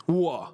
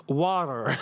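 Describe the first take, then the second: First: "Water" with the t swallowed; British glottal-stop "Water"; British pronunciation. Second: "Water" in a lower mock-American voice; American "Water", teasingly imitated; mock American accent. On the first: Shown as a demonstration. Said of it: "the way we say water". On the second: Mimics American way of saying water.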